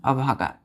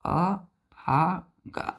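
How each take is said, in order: First: Said in the usual way. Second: अभागा stretched very slowly, each sound long; very slow demo. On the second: Shown as a demonstration. Teacher repeating the Hindi meaning slowly for children. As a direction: draw अभागा out as if dictating. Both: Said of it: "क्या होता है?".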